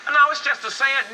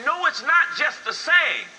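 First: Loud, high imitated objection; mock protest. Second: Slow, loud, high rebuttal leaning on "not"; stress on NOT. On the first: Grandson excuses his saying to grandfather, mock protest. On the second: Real, not acted. Preacher corrects the excuse, stressing "not". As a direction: hit "not" hard, high and drawn out.

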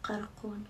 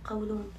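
First: قرقون said with r in place of l, a garbled slip; mispronounced word. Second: قولون said properly with a clear l; corrected word. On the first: Telling followers about her bloated belly, fumbling the word as قرقون. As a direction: stumble over the word as قرقون, quiet and unsure. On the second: Correcting herself for followers, saying قولون properly. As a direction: fix the slip and say قولون cleanly. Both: Shown as a demonstration. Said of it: "شو القرقون هذا؟".

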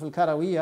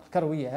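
First: الكروية with an open "a" after the r; full-vowel pronunciation. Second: الكروية the Moroccan way, no vowel between r and w; Moroccan pronunciation. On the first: Lecturer giving the herb's name in Arabic, full-vowel pronunciation. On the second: Lecturer showing how Morocco names the herb, Moroccan pronunciation. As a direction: say الكروية as "al-kar-wi-ya". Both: Shown as a demonstration. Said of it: "في المغرب نحن ننطق الكروية هكذا".

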